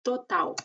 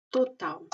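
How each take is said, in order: First: "total" ending in w; final L as U. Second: "total" again as to-taw; final L as U repeated. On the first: Teacher shows final L as u. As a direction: say "total" as to-taw. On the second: Teacher repeats final L example. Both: Shown as a demonstration. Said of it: "se pronuncia como una U".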